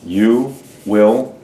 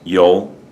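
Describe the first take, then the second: First: Both words are said fully and separately. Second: The words are squeezed into one short syllable.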